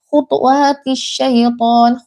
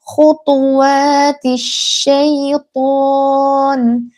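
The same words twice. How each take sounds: First: The phrase is read fast and rushed. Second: The phrase is read slowly and carefully. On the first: The speaker calls it wrong. "menjadi sukun karena terlalu cepat. Misal" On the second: The speaker calls it right. "jangan baca cepat-cepat, ya pelan saja"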